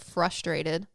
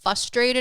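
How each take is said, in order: First: The r after the f is pronounced. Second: The r after the f is dropped.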